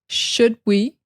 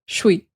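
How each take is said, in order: First: Both words are pronounced in full. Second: Should shrinks to sh, blended into one syllable.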